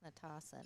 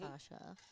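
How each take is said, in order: First: The middle consonant is a plain s sound. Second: The middle consonant is an sh sound. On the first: The speaker calls it right. "I think it's Natasa" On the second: The speaker calls it wrong. "not Natasha"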